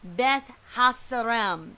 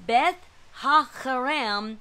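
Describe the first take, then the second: First: The consonant after 'Ha' is an s sound. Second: The consonant after 'Ha' is a throaty kh. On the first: The speaker calls it wrong. "not pronounced S, like I thought" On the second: The speaker calls it right. "It's a Chet"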